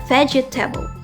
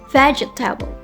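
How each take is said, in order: First: The word is said with four syllables. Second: The word is said with four syllables.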